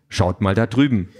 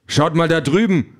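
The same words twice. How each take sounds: First: Said in the usual way. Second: High, raised alarm call; urgent pointing-out shout. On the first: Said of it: "deuten und rufen". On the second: A narrator's reading. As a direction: call out to turn their heads. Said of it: "ruft er".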